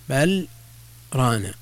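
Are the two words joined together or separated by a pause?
Separated. A short pause separates the two words. The two words are heard as distinct words. The speaker calls it right. "يسكت بعد بل يوقف عليها ثم يقال ران"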